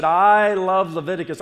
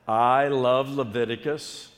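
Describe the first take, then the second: First: Loud, high rallying cry; full enthusiasm. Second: Slow, measured congregation prompt; half-enthused catchphrase. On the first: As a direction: belt it out to fire up the congregation. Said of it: "with the enthusiasm that, uh, you know, we, we had". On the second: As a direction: say it slowly, not yet fired up. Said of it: "you're not saying that with the enthusiasm". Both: Shown as a demonstration.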